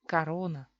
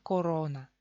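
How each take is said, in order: First: The unstressed first O is reduced, sounding like A. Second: Every vowel is pronounced fully, first as clear O. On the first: "los rusos la pronuncian así" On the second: "Pronunciamos cada vocal así como es"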